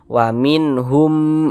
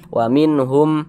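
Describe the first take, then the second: First: The final syllable is held long and nasal. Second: The final syllable is short and not held. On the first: "humnya kita tahan, kita panjangkan sejenak" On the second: "pendek saja"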